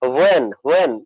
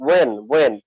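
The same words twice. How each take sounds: First: When with a breathy h, "hwen", American style. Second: When said British way, h silent, "wen". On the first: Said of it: "American ওরা বলবে যে". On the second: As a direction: drop the h in when, British style. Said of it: "এটা কিন্তু British". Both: Shown as a demonstration.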